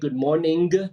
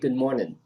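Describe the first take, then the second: First: The final -ing is pronounced fully. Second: The final -ing is cut short. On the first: The speaker calls it wrong. "we don't say good morning" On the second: The speaker calls it right. "we say good morning"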